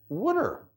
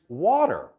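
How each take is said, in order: First: It is said with a Philadelphia accent. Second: It is said with a standard accent.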